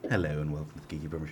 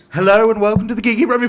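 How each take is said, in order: First: The greeting is spoken quietly. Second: The greeting is spoken loudly. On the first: The speaker calls it wrong. "Speak up, [name], come on" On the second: The speaker calls it right. "Shout it and be proud"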